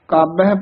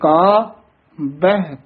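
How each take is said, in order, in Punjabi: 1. ਦੋਵੇਂ ਸ਼ਬਦ ਬਿਨਾਂ ਰੁਕੇ ਇਕੱਠੇ ਬੋਲੇ ਜਾਂਦੇ ਹਨ। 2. ਦੋਵਾਂ ਸ਼ਬਦਾਂ ਵਿਚਕਾਰ ਇੱਕ ਛੋਟਾ ਜਿਹਾ ਵਿਰਾਮ ਹੈ। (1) "ਕਾਬਹਿ ਪਾਠ ਨਹੀਂ ਕਰਨਾ" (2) "ਇੱਥੇ ਵਿਸਰਾਮ ਲਾਉਣਾ ਧਿਆਨ ਦੇ ਨਾਲ"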